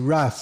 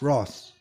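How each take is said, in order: First: It is said with an American pronunciation. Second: It is said with a British pronunciation.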